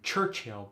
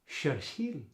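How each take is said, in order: First: The word begins with a ch sound. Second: The word begins with an sh sound.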